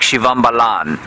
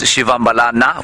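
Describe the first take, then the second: First: The name ends with a consonant sound. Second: The name ends with a final vowel sound. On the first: The speaker calls it wrong. "to the untrained trained ear, it might sound like Shivambalan. It isn't" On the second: The speaker calls it right. "the correct pronunciation is Shivambalana with the A on the end of it"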